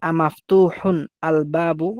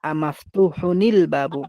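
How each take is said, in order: First: The words are said separately without linking. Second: The words are linked into one flowing unit.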